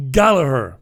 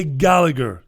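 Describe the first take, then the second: First: "Gallagher" as GAL-a-her with an h; Irish pronunciation. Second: "Gallagher" with a hard g in the middle; English pronunciation. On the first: Host insisting on the Irish "Gallagher". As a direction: breathe the middle of "Gallagher". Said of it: "It's Gallagher". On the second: Host showing the English mispronunciation of "Gallagher". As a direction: say "Gallagher" flatly, g sounded. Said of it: "but they say". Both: Shown as a demonstration.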